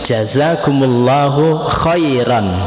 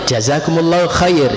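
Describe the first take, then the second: First: The final word ends with an 'an' sound. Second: The final word ends without an 'an' sound. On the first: The speaker calls it right. "yang benar" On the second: The speaker calls it wrong. "itu keliru"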